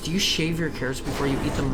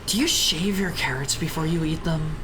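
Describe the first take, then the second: First: The question sounds neutral and open. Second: The question sounds judgmental and disapproving. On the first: The speaker is simply curious. The speaker calls it right. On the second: The speaker disapproves of the practice. The speaker calls it wrong.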